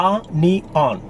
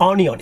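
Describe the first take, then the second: First: "onion" slowly as ah-nee-on; correct pronunciation. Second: "onion" said quickly as oh-nion; mispronunciation. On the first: Teacher correcting the word for learners, syllable by syllable. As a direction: stretch "onion" into three beats, ah-nee-on. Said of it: "it's onion". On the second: Teacher showing what it is not, mispronounced. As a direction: say "onion" with an "o" start, run together. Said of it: "This is not onion". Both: Shown as a demonstration.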